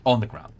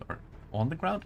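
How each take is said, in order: First: On the ground falling, decided and firm; confirming the phrase with a falling tune; settled fall. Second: Ground lifted up as a question; testing the phrase with a rise. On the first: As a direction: answer yourself, confident. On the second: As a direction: ask it, unsure which phrasing is right. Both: Shown as a demonstration. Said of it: "On, or at ground".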